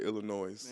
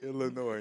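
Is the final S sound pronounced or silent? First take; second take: pronounced; silent. First: The final S is pronounced. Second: The final S is silent. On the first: The speaker calls it wrong. "I be hearing a lot of people say Illinois" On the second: The speaker calls it right. "it's supposed to be silent"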